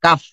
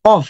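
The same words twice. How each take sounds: First: কাফ from the back of the throat; deep qaf. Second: কফ with a front, light k; light kaf. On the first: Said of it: "একটা হচ্ছে কাফ". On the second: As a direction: say কফ short and light. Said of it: "আর একটা হচ্ছে". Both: Shown as a demonstration.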